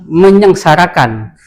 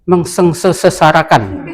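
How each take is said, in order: First: The prefix is meny, replacing the s sound. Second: The prefix is meng followed by an s sound. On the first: The speaker calls it right. "harusnya kan menyeng, cukup saja" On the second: The speaker calls it wrong. "bilang macet ini mengsengsarakan"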